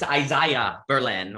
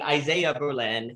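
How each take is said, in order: First: The name is given a non-Americanized pronunciation. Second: The name is given an Americanized pronunciation. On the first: The speaker calls it right. "It's Isaiah Berlin" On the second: The speaker calls it wrong. "that is incorrect. That is an, an Americanization"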